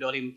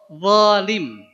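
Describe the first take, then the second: First: The word begins with a d sound. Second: The word begins with a z-like sound. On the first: The speaker calls it wrong. "jangan sampai wolim mengucapkan kata wolim dengan dolim" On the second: The speaker calls it right. "harusnya wo"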